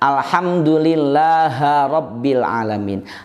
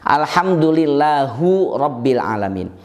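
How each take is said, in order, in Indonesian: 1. Kata lillah diakhiri dengan vokal a. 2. Kata lillah diakhiri dengan vokal u. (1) "jelas keliru" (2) "jelas keliru"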